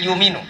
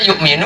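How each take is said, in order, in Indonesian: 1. Hamzah dihilangkan dan vokalnya dipanjangkan. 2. Hamzah diucapkan setelah vokal pertama. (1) "harusnya yuminu" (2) "yukminu ada hamzah"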